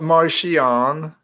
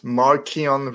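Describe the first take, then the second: First: The consonant after 'Mar' is a soft CH sound. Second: The consonant after 'Mar' is a K sound. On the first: The speaker calls it wrong. "It's not Martian" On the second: The speaker calls it right. "CH. Pronounce it like a K"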